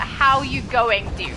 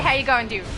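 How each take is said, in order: First: It is said at a slow pace. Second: It is said at a fast pace.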